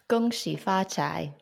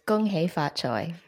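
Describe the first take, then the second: First: It is said with Mandarin pronunciation. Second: It is said with Cantonese pronunciation. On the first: "in Mandarin" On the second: "or in Cantonese"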